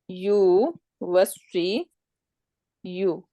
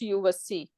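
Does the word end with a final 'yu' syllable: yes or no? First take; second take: yes; no. First: The word ends with a full 'yu' syllable. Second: The final 'yu' syllable is dropped. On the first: The speaker calls it wrong. "mudaria will become you was see you" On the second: The speaker calls it right. "we say just you was see"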